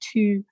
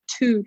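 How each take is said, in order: First: Put-on "two" in a soft, gentle Edinburgh accent. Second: Said in the usual way. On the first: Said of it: "gentler, softer". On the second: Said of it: "Because he said, like, instead of".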